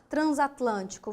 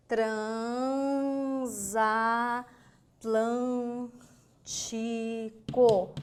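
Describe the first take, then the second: First: Said in the usual way. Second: "Transatlântico" very slowly as tran, za, tlân, ti, co; syllable by syllable. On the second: Shown as a demonstration. Teacher sounding out the word for students, very slow stretched syllables. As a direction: hold each syllable of "Transatlântico" long and level. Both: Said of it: "Vamos imaginar a palavrinha?".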